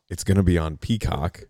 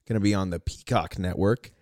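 First: The stress falls on the first syllable, pea. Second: The stress falls on the second syllable, cock.

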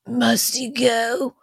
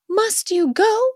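First: The voice is raspy like a smoker's. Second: The voice is high-pitched and young sounding.

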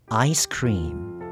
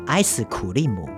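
First: Cream is said as a single syllable. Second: Cream is broken into several syllables with added vowels. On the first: The speaker calls it right. "正确的念法是ice cream" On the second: The speaker calls it wrong. "我以前学过叫做ice 苦力姆"

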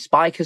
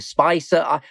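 First: The middle consonant sounds like a k. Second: The middle consonant sounds like an s. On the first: "Some say Spiker" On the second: "some say Spicer"

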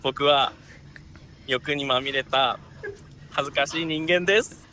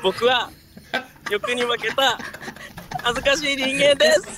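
First: It is said in a quiet voice. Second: It is said in a loud voice.

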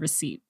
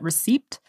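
First: The p sound is silent. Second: The p sound is pronounced. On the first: The speaker calls it right. "The P is silent in receipt" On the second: The speaker calls it wrong. "I called it receipt"

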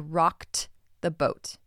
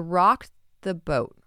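First: Said slowly with a clear T sound in rocked. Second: Said quickly with the T blended into the. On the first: "If I read that slowly, you hear that T sound" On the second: "When I read it quickly... You can barely hear that ED ending"

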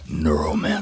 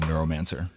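First: It is said in a spooky voice. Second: It is said in a normal voice.

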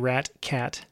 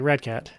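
First: The t in the first word is crisply pronounced. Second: The t in the first word sounds like d. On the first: The speaker calls it right. "forces you to enunciate extra hard" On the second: The speaker calls it wrong. "Otherwise, you're saying like rad cat"

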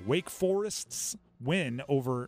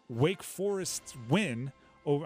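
First: A neutral accent pronounces every R sound. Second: A Boston accent drops the R sounds. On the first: "I'm going to say all my R's now" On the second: "Just going to start letting my Ben Affleck and Matt Damon Goodwill Hunting accent come out"

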